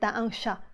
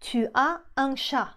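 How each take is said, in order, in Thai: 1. "Tu as" ย่อเหลือพยางค์เดียว คือ "ta" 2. "Tu as" ออกเสียงเต็มสองพยางค์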